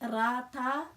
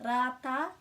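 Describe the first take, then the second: No difference in how they are said.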